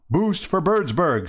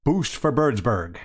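First: Higher, slow reverent slogan. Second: Said in the usual way. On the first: A narrator's reading. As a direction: echo the slogan reverently, drawn out. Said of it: "said the other chappies reverently".

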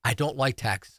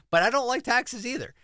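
First: Said in the usual way. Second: Don't jumps much higher, the phrase pushed out hard; stress on don't. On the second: Real, not acted. To the radio host, insisting he dislikes taxes too, don't stressed high. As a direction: lean right into don't like taxes.

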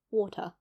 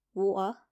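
First: "water" with a clearly pronounced T; sounded-out T. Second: "water" with the T left out; dropped T. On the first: Showing what listeners expect, T pronounced in "water". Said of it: "sounding out letters with a lot more exaggeration". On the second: Showing British habit of skipping letters, T dropped in "water". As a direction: say "water" without sounding T or R. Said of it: "we don't like to say those a lot". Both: Shown as a demonstration.

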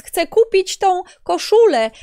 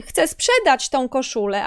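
First: "chcę kupić tą koszulę" slower and raised in pitch; intended intonation. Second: "chcę sprzedać tą koszulę" at ordinary pitch, unhurried by contrast; mistaken intonation. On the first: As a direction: spell out "kupić" slowly, higher. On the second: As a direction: let "sprzedać" drop back to an everyday level. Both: Shown as a demonstration. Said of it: "tylko intonacja inna".

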